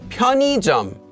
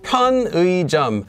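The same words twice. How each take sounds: First: The second syllable has a plain 'i' vowel. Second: The second syllable has the full 'ui' vowel. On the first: This is the more common everyday pronunciation. "a more common way that it gets pronounced" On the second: This is the dictionary's listed pronunciation. "it could be pronounced as"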